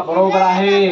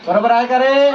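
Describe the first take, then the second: First: Level statement on "बरोबर आहे", no questioning lift; confirming. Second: Raised, rising question, lifted at the end of "बरोबर आहे का रे"; questioning the class. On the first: Teacher confirms the pupil's answer, "बरोबर आहे" as an even statement. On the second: Teacher checks a pupil's answer with the class, rising question on "बरोबर आहे का रे". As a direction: ask "बरोबर आहे का रे" with the pitch climbing to the end. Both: Real, not acted.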